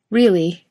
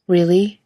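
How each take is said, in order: First: Really? said with a teasing smirk and a falling end. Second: Really? asked with a rising, hopeful lift; surprised question. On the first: Jared teasing Jensen back, smirking Really?. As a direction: let Really? drop down, knowing and playful. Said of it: "Jared says with a smirk". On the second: Jensen asks Jared in disbelief, a rising Really?. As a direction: let Really? climb up at the end in disbelief. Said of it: "Jensen asks". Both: A narrator's reading.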